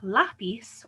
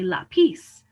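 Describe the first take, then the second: First: The stress is on the first syllable. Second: The stress is on the last syllable. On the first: The speaker calls it right. "stresses the second to last vowel" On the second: The speaker calls it wrong. "if the words were going to follow the rule, we would say"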